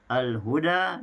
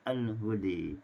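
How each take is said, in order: First: The final vowel is an open a. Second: The final vowel is tilted toward e.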